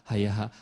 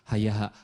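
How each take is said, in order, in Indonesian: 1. Diucapkan sebagai satu kata tiga suku kata yang mengalir lancar. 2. Diucapkan sebagai satu kata tiga suku kata yang mengalir lancar.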